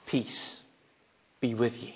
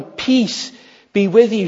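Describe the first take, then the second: First: Soft, lower, near-whispered peace; hushed blessing. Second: Clear, louder declaration of peace; proclaimed blessing. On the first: Preacher gives Jesus' greeting to the disciples, hushed and soft. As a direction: let it fall quietly, almost breathed. Quoting Jesus again, verse 26. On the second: Preacher declares Jesus' greeting to the disciples, proclaimed loudly. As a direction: announce it boldly to the room. Quoting Jesus again, verse 21. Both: Acted.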